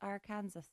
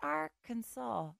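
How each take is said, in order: First: The ending sounds like the name Kansas. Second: The ending does not sound like Kansas. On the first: "and not Arkansas? There's a lot of Kansas going on there" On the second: "Why is it Arkansas"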